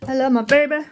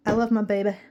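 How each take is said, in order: First: Put-on higher and louder, "baby" stretched out fondly; gushing. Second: Said in the usual way. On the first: Shown as a demonstration. Gushing about her husband to viewers, louder and higher. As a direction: gush it, leaning on "baby".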